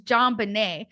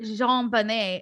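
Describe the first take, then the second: First: The name is said with a plain English pronunciation. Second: The name is said with a French pronunciation. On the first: The name comes from her father's name. The speaker calls it right. "it's John Bonnet" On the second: The name is treated as if it were French. The speaker calls it wrong. "really putting this like French accent on it"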